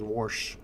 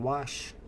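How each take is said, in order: First: "wash" said as "warsh", with an added R; mom's Indiana wash. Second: "wash" said plainly, no R at all; correct wash. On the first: Retold or imitated. Imitating mom saying "wash" with an R. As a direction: sneak an R into "wash" like mom does. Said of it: "she always says". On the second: Shown as a demonstration. Correcting mom, "wash" said without any R. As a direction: say "wash" clean, with no R. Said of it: "there's no R".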